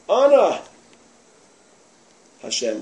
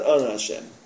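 First: There is a clear pause after Ana. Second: Ana runs straight into Hashem without pause. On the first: The speaker calls it right. "It's not Ana Hashem. Ana" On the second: The speaker calls it wrong. "It's not Ana Hashem"

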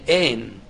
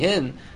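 First: The word begins with a vowel, no h. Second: The word begins with an h sound. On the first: The speaker calls it wrong. "they couldn't pronounce the letter Hey... they would say Ein" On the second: The speaker calls it right. "instead of saying Hin"

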